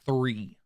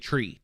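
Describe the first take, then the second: First: The word begins with a 'th' sound. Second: The word begins with a plain 't' sound. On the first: "I don't say three" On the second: "I say tree. T R E E"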